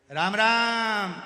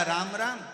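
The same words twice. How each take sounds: First: Slow, very loud hospital greeting; loud drawn-out shout. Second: Quick loud shout; shouted greeting. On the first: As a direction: bellow the greeting slowly, like a deaf man. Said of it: "वो चिल्ला के बोलता है". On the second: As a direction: call it out loud. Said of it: "और जो चिल्लाया". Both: Retold or imitated.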